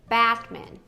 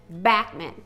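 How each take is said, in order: Both takes have the same delivery.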